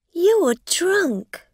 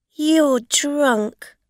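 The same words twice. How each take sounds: First: High, loud scornful accusation; accusing. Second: Accusing. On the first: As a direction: throw the accusation at her. Rosa repeating accusation, higher. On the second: Rosa accusing the driver. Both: A narrator's reading.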